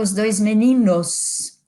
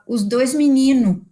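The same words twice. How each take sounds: First: The last word is said with a final s. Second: The last word is said without a final s. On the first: This is the standard form matching the written language. "Eu não falo" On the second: This is the informal regional way of speaking. "não faço plural de várias coisas... numa situação mais informal, eu falo"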